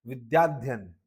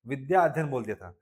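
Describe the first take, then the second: First: विद्याध्ययन run together as one word without a break; joined as one word. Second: Said in the usual way. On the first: Shown as a demonstration. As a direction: blend विद्याध्ययन smoothly in one breath. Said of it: "एक साथ बोलेंगे विद्याध्ययन". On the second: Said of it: "एक साथ बोलेंगे".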